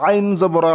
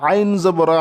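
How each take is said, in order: No difference in how they are said.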